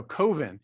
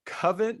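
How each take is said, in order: First: "Coven" with a long O, as COH-ven. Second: "Coven" with a short U, rhyming with oven. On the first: Host correcting the film's title, "Coven" said COH-ven. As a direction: say "Coven" with the first syllable like COE. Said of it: "no, Coven". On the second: Host fumbling the film's title, "Coven" rhyming with oven. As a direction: say "Coven" like CUV-en. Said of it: "that sounds like oven". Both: Shown as a demonstration.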